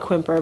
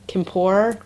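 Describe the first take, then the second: First: The name is said with an American-style pronunciation. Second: The name is said with a French-style pronunciation. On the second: "someone told us how to pronounce that French pottery"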